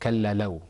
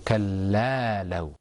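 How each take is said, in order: First: The vowel after the lam is short. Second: The vowel after the lam is held long. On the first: The speaker calls it wrong. "instead of كلا لو" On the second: The speaker calls it right. "we're pronouncing it for a longer time"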